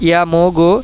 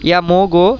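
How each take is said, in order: Both takes have the same delivery.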